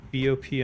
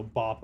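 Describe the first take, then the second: First: B O P read as separate letters, bee oh pee; spelled out letters. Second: Bop said as one word rhyming with top. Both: Shown as a demonstration.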